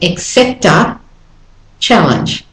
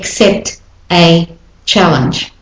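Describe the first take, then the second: First: The t runs smoothly into the following a. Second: The t is separated from the following a. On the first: The speaker calls it right. "So the T links to the A and it all runs smoothly" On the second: The speaker calls it wrong. "I don't say accept a challenge"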